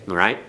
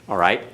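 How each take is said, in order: The two takes are said the same way.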